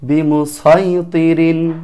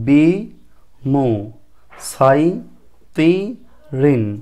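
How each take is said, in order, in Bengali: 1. অক্ষরগুলো থামা ছাড়া একসাথে জুড়ে বলা হয়। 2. অক্ষরগুলো থেমে থেমে আলাদাভাবে বলা হয়।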